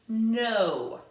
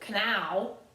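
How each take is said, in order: First: The word begins with no K sound. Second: The word begins with a pronounced K sound. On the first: The speaker calls it right. "Remember this K is silent. I say no" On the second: The speaker calls it wrong. "I don't say k"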